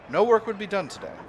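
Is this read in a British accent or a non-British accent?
non-British. It is read in the speaker's usual non-British accent.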